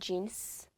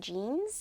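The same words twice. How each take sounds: First: The word ends with an s sound. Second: The word ends with a z sound. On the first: The speaker calls it right. "with the S sound on the end" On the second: The speaker calls it wrong. "you don't say jeans"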